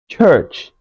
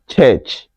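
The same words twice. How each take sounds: First: The vowel does not sound like 'eh'. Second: The vowel sounds like 'eh'. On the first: The speaker calls it right. "this word is rather pronounced church" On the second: The speaker calls it wrong. "not church. The letters U R in it can never... make the sound eh"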